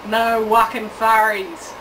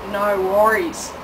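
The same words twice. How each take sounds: First: "wucking furries" said slow, spoonerised; Aussie spoonerism. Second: Said in the usual way. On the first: Shown as a demonstration. Host teaching visitors the Aussie version, slow. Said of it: "as we say in Australia". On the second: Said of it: "Or, as we say in Australia".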